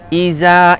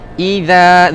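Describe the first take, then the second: First: The middle consonant is a plain 'z' sound. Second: The middle consonant is a soft 'dh' sound. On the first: The speaker calls it wrong. "iza salah" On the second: The speaker calls it right. "ingatkan bunyikan zal"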